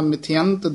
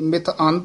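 First: The word is said as one joined unit. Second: The word is split into two separate parts. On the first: The speaker calls it right. "ਇਸੇ ਤਰ੍ਹਾਂ" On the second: The speaker calls it wrong. "ਇਹ ਮਿਥ ਅੰਤ ਨਹੀਂ ਬੋਲਣਾ"

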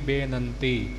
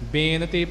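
First: The middle syllable has a nasal sound. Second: The middle syllable has no nasal sound. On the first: The speaker calls it right. "ਨੰਨੇ ਨੂੰ ਟਿੱਪੀ" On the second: The speaker calls it wrong. "ਬੇਨਤੀ ਪਾਠ ਨਹੀਂ ਕਰਨਾ"

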